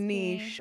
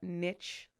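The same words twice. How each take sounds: First: It is said in a British way. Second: It is said in an American way.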